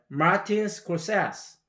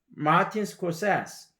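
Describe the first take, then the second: The two takes are said the same way.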